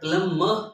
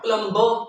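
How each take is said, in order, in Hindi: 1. बीच का b silent है। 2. बीच का b उच्चारित होता है। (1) "बट प्लम्बर, ... तो वो भी साइलेंट होगी" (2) "नॉट प्लम्बर"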